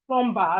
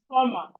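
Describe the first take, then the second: First: The B sound is pronounced. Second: The B sound is silent. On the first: The speaker calls it wrong. "it's not plumber as some of us say" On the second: The speaker calls it right. "It's plumber, plumber, plumber, plumber because the B is silent"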